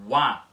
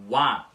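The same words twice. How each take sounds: First: The first vowel is quick and short. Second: The same.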